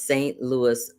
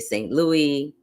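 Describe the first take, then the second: First: It uses the pronunciation local residents use. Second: It uses the pronunciation outsiders commonly use. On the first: The speaker calls it right. "It is Saint Louis" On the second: The speaker calls it wrong. "people pronounce it wrong. They say Saint Louis"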